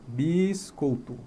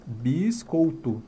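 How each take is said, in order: No difference in how they are said.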